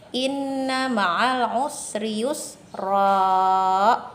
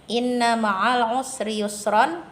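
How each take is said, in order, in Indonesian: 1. Kata terakhir berakhir dengan vokal a panjang. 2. Kata terakhir berakhir dengan vokal ditambah n.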